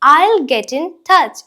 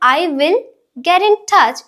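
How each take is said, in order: First: I will is shortened to one syllable. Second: I will is said as two full words. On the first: The speaker calls it right. "I will നെ short ആക്കിയിട്ട് നമ്മൾ I'll എന്ന് പറയും" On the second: The speaker calls it wrong. "സാധാരണ നമ്മൾ I will get in touch എന്നതിന് പകരം"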